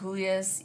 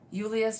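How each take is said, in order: First: The name has a Hispanic pronunciation. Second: The name has an Eastern European pronunciation. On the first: The speaker calls it wrong. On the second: The speaker calls it right. "Eastern European"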